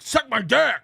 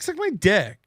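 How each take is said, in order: First: It is said aggressively. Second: It is said in a chill way.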